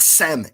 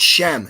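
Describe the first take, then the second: First: The name begins with a plain s sound. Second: The name begins with a sh sound. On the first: The speaker calls it wrong. "it's not Sem" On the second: The speaker calls it right. "it's Shem"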